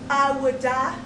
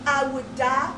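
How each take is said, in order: Both takes have the same delivery.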